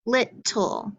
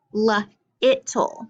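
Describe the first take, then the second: First: Little in two clear beats, LIT-tool; echo-drill syllables. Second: Little broken into "luh", "it", "tool"; sounded out. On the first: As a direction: model little for echoing, final -tle as a full "tool". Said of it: "So echo 'em back with me". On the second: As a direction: sound out little piece by piece, pausing after the l. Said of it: "we're acting like that's a wall". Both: Shown as a demonstration.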